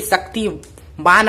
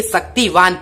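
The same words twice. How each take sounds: First: "शक्तिमान" with an m, ending in -maan; wrong reading. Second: "शक्तिवान" with a v, ending in -vaan; corrected reading. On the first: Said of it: "शक्तिमान आप नहीं पढ़ेंगे". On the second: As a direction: say "शक्तिवान", v replacing the m. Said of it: "शक्तिवान पढ़ेंगे". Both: Shown as a demonstration.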